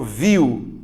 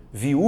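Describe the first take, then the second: First: "viu" as one strong VIW glide; one syllable. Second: "viu" pulled apart as vi-u; two separate vowels in "viu", vi then u; split into syllables. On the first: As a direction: hit the I and slide into U in "viu". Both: Shown as a demonstration. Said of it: "É uma coisa só".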